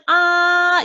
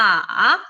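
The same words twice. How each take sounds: First: The pitch stays high and level. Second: The pitch dips low, then rises. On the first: "높고 길게" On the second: "일로 내려갔다가 사까지 올려주는"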